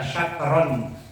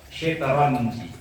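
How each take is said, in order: First: The first vowel is an a sound. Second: The first vowel is an i sound. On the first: "membaca fathah" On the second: "dibaca shinnya itu dibaca kasrah"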